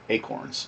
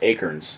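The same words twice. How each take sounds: First: Acorns is said in a Northern way. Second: Acorns is said in a Southern way.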